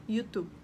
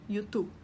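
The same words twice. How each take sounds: First: It is said with a Spanish pronunciation. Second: The same.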